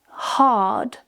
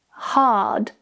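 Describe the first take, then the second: No difference in how they are said.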